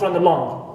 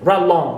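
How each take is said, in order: First: The initial schwa of the second word is pronounced. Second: The initial schwa of the second word is dropped. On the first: The speaker calls it wrong. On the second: The speaker calls it right. "we remove the shba at the beginning of second word and we pronounce it"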